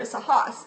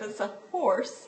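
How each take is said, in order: First: The r sound in horse is dropped. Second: The r sound in horse is pronounced. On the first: "I must have been saying it's a hoss over and over" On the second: "instead of it's a horse"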